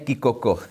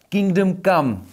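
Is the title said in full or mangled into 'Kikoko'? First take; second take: mangled; full. First: The words are slurred together into 'Kikoko'. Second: Both words are pronounced fully and clearly. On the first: The speaker calls it wrong. "ta výslovnost není úplně dobrá" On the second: The speaker calls it right. "Kingdom Come, ne Kikoko"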